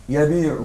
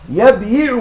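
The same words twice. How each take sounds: First: يبيع said yabee', kasra moved to the ba, ya silent; correct form. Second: يبيع said with the ya voweled, yab-yi'u, heavy on the tongue; heavy original form. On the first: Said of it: "فنأخذ الكسرة نضعها للباء". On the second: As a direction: spell out يبيع as yabyi'u with a full kasra on the ya. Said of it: "لكن ثقيل على اللسان". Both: Shown as a demonstration.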